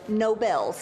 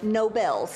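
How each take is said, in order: First: It sounds like the prize name Nobel. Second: The same.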